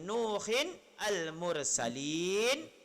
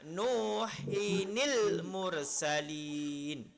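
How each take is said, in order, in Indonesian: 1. Huruf n dan kata berikutnya tetap terpisah. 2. Huruf n tersambung ke kata berikutnya dengan bunyi i.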